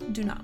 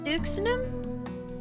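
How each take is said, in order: First: The x is silent in the middle. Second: The x is sounded in the middle. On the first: The speaker calls it right. "Okay, it is silent" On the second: The speaker calls it wrong. "I know I'm saying this wrong"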